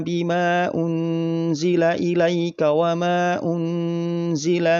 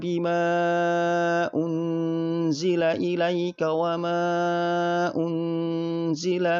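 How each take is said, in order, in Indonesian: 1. Vokal sebelum unzila dibaca singkat. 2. Vokal sebelum unzila dibaca panjang. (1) "contoh ketika dibaca dengan panjang satu alif" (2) "jika dibaca dengan panjang dua setengah alif atau lima harokat"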